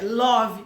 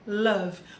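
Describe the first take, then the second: First: It is read with Portuguese letter sounds. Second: It is said with English sounds. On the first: The speaker calls it wrong. "eu vou querer pronunciar love" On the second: The speaker calls it right. "o certo é love"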